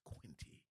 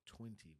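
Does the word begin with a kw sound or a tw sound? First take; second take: kw; tw. First: The word begins with a kw sound. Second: The word begins with a tw sound.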